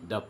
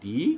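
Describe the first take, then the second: First: The word ends in a short, weak 'uh' vowel. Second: The word ends in a long 'ee' vowel. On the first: The next word starts with a consonant. "দ উচ্চাৰণ কৰিম" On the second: The next word starts with a vowel. "তাক আমি ডি বুলিয়ে পঢ়িম"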